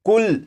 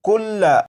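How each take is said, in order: First: The word stops on the final 'l' consonant. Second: The word ends with a final 'a' vowel. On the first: This is how the word is read when pausing on it. "वक्फ में पढ़ेंगे तो लाम के ऊपर जो जबर है इस जबर को नहीं पढ़ेंगे" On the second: This is the written form with its final vowel. "ये लफ्ज लिखा है कुल्ला"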